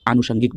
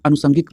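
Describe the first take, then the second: First: आनुषंगिक starting on a long aa; correct pronunciation. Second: अनुषंगिक starting on a short a; wrong pronunciation. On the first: Teacher telling students how to say it, आनुषंगिक with long aa. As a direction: say आनुषंगिक as aa-nu-shangik. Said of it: "आप आनुषंगिक बोलेंगे". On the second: Teacher showing how many people mispronounce it, अनुषंगिक with short a. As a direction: say अनुषंगिक as a-nu-sangik, short first vowel. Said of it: "वो गलत pronunciation है". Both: Shown as a demonstration.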